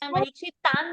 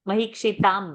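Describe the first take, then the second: First: The word ends in an n sound. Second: The word ends in an m sound. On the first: The speaker calls it wrong. "you said? No" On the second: The speaker calls it right. "म"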